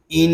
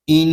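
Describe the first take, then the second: First: ان said short, no nasal hold; wrong take ان without ghunna; wrong reading. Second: ان with a long nasal hum on the doubled نون; with ghunna. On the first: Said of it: "اس کو ان نہیں پڑھیں گے". (غلط ان) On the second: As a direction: hold the نون of ان through the nose. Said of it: "غنے کے ساتھ پڑھیں گے". (غنے کے ساتھ ان) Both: Shown as a demonstration.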